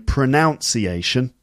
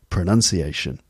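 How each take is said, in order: First: The second syllable sounds like 'noun'. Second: The second syllable sounds like 'nun'. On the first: The speaker calls it wrong. "people sometimes will say pronunciation, but technically that is wrong" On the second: The speaker calls it right. "It should be pronunciation"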